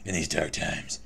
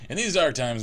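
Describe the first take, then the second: First: It is read in a deep, gravelly Batman voice. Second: It is read in the speaker's ordinary voice.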